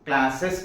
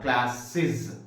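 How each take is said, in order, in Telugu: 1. ఆ ప్రత్యయాన్ని 'iz' లాగా పలకరు. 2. ఆ ప్రత్యయాన్ని 'iz' లాగా పలుకుతారు. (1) "క్లాసెస్ కాదు" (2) "ఇలా ఇజ్ అనేటువంటి శబ్దం రావాలి"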